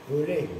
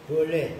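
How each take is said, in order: Both takes have the same delivery.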